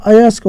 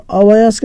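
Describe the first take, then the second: First: अयस्क as a-yask, no "va"; corrected word form. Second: अवयस्क with an extra "va" after the first "a"; wrong word form. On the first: Teacher correcting the question for students, अयस्क without "va". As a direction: say अयस्क with "ya" straight after "a". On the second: Teacher showing students the misprinted word, अवयस्क with added "va". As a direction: say अवयस्क as a-va-yask, with the "va". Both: Shown as a demonstration. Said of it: "अवयस्क नहीं होता है".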